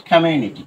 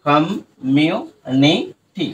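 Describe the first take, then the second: First: Said in the usual way. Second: কমিউনিটি stretched out very slowly, each syllable apart; very slow broken-up community. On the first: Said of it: "right?". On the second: Shown as a demonstration. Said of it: "ভেঙে উচ্চারণ করতে পারি".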